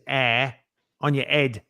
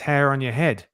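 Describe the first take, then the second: First: The first word starts without an h sound. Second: The first word starts with an h sound. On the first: The speaker calls it wrong. "You don't say this is air on your head" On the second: The speaker calls it right. "You say it's hair on your head"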